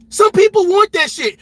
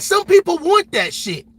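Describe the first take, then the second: First: Second take pushed louder and higher, hitting "Some"; louder repeat. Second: Said in the usual way. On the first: Shown as a demonstration. Streamer doubling down to his chat, louder emphasis. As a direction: lean hard on "Some" the second time.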